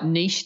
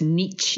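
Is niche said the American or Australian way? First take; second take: Australian; American. First: Niche is said the Australian way. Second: Niche is said the American way. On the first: "that's an Australian pronunciation" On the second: "In America you say niche"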